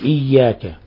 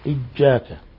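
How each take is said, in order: First: The middle consonant is a clear y sound. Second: The middle consonant is a j sound. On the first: The speaker calls it right. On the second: The speaker calls it wrong.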